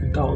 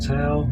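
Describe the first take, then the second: First: The word begins with a D sound. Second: The word begins with a T sound. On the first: The speaker calls it right. "the D A O" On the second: The speaker calls it wrong. "it's sometimes wrongly pronounced"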